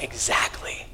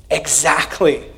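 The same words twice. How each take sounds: First: Hushed whisper of Jesus. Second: Said in the usual way. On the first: Pretend. Pastor voicing Jesus's gentle reply to a sinner, whispered. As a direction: breathe it softly as Jesus. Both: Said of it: "And Jesus is like".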